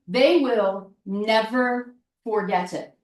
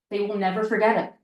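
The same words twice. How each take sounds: First: Slow, deliberate, word by word; slow emphasis. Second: Fast, tossed-off repeat; quick repeat. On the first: Coach stressing how business owners remember you, said slowly. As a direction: let each word land slowly. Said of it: "repeated line, slow take". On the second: Coach repeating the point to listeners, fast and brisk. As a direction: rattle it off quickly the second time. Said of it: "repeated line, fast take". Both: Shown as a demonstration.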